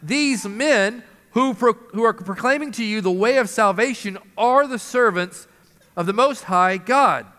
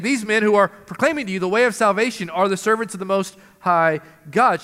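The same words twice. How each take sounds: First: Slow, drawn-out proclamation, pitched a bit up; the slave girl calling after Paul, slow and drawn out; slow proclaiming cry. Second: Fast, even run-through of the cry; preacher repeating the girl's cry, fast and light; quick rattled-off quote. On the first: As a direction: call it out slowly like a street herald. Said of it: "she cried out". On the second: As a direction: rattle it off briskly as a recap. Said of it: "She's saying". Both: Retold or imitated.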